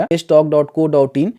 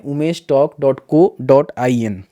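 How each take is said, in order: First: Said in the usual way. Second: Slow, careful dictation of a site name; slowed down so viewers can type Umesh talk dot co dot I N. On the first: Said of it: "ये वाला जो है website देखने को मिलेगा". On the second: Shown as a demonstration. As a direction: spell the web address out slowly, word by word. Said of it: "search करना है".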